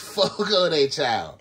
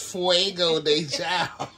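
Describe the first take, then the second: First: The first word sounds like 'Fogo'. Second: The first word sounds like 'Fuego'. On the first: The speaker calls it right. "It's Fogo de Chao" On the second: The speaker calls it wrong. "What is Fuego de Chao?"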